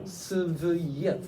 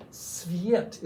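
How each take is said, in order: First: "Sviet" slowly broken into si-vi-yet; "Sviet" stretched, a tiny vowel splitting the s and v; consonant cluster demo. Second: Said in the usual way. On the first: Shown as a demonstration. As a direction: sound out each consonant of "Sviet". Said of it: "get used to these consonant clusters". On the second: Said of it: "these consonant clusters".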